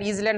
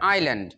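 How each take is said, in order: First: The s is pronounced as a z sound. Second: The s is silent, starting with eye. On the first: The speaker calls it wrong. "ইজল্যান্ড হবে না" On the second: The speaker calls it right. "উচ্চারণটা হবে আইল্যান্ড"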